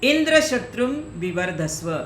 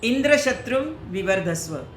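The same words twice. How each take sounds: The two takes are said the same way.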